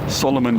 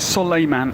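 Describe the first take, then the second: First: The middle syllable sounds like 'lo'. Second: The middle syllable sounds like 'lay'. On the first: The speaker calls it wrong. "you'd be tempted to say" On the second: The speaker calls it right. "but it is Soleiman"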